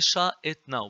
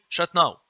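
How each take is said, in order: First: The phrase is said slowly, each part distinct. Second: The phrase is said quickly, parts run together. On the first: "If you say it slowly" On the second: "but quickly"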